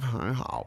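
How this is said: It is said like a reluctant young child. The speaker does not really agree but has to say it. "if you're like a little seven-year-old who doesn't really agree"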